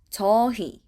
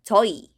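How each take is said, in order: First: The h sound in the second syllable is pronounced. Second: It is said fast with the h sound dropped.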